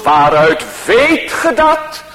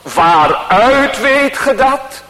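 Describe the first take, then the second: First: The stress falls on the word weet. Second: The stress falls on the word waaruit. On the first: "Vervolgens op het tweede woord" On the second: "De eerste keer leggen we de nadruk op het eerste woord"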